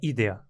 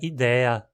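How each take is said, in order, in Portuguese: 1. A tônica cai na primeira sílaba. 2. A tônica cai na segunda sílaba, que é longa. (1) "o adequado é idea" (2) "com um E longo ali"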